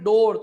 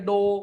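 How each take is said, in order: First: The r sound after the vowel is pronounced. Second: The r sound after the vowel is dropped. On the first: This is the local way of saying it. "जैसे अपने बोलते हैं ना डोर" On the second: This is the American way of saying it. "तो लोग क्या बोलेंगे? ... वो लोग आर को प्रोनाउंस ही नहीं करते"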